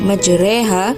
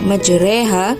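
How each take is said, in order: First: The vowel after r leans toward an e sound. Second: The vowel after r leans toward an e sound.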